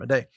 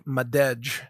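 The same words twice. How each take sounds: First: The name is pronounced differently from its spelling. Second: The name is pronounced the way it is spelled. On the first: "but she pronounces it Madej" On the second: "Like Madej"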